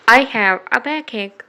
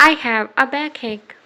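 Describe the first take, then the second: No difference in how they are said.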